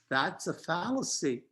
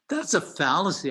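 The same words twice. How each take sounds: First: It is said in a calm, measured tone. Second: It is said in an angry, attacking tone.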